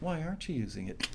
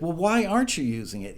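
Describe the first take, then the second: First: It is said in a nice, friendly tone. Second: It is said in a harsh, demanding tone.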